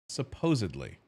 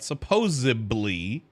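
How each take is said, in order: First: The word is built on 'supposed', with a 'd'. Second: The word has a 'b' sound instead of 'd'. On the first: The speaker calls it right. "it's supposed. Supposedly" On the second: The speaker calls it wrong. "Not supposedly. That's not a word"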